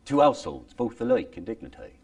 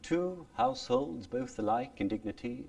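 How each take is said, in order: First: Said in the usual way. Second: "Two households, both alike in dignity" in Elizabethan original pronunciation, higher and softer. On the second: Shown as a demonstration. Teacher contrasting original pronunciation with modern speech. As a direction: recite it in Shakespearean original pronunciation. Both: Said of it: "It's faster too, hey?".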